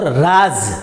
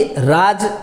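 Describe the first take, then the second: First: राज said as "raaz", with a buzzing z; clear, contrasted "raaz" for राज; nukta z ending. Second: राज said as "raaj", with a hard j; slow, clear "raaj" for राज; plain j ending. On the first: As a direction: end राज on a z as in "buzz". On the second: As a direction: end राज on a j as in "judge". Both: Shown as a demonstration. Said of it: "नुक्ता लग गया".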